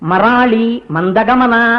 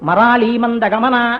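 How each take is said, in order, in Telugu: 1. రెండు పదాల మధ్య విరామం ఉంది. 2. రెండు పదాలు విరామం లేకుండా కలిసి ఉన్నాయి. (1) "విడదీసి చదవకూడదు ఎప్పుడు" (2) "కలిపి చదవాలి"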